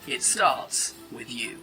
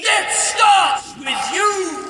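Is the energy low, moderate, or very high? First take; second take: low; very high. First: It is read with low energy. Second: It is read with very high energy.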